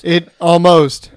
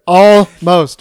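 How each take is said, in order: First: "almost" drawn out slowly and louder; stressed ALMOST. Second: "Almost" stretched out and much louder; emphatic ALMOST. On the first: Correcting a friend about the stopped steal, slow stress on "almost". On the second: Insisting to Donnie it is not over, loud stress on "Almost". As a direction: hit "Almost" hard, at full volume. Repeats the word harder for emphasis. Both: Real, not acted.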